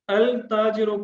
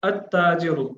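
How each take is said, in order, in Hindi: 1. एक single T से पहले L बोला जाता है। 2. L साइलेंट है और T डबल है। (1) "तो ये जुबान लड़खड़ा जाती है" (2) "इसमें लाम साइलेंट किया गया है"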